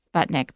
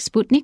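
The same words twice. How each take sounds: First: The word has an English-style pronunciation. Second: The word has a Russian-style pronunciation. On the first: "in English, we say Sputnik" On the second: "in Russian, it's more like Sputnik"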